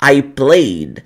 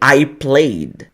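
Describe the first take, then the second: First: The -ed ending is only a subtle final sound. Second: The same.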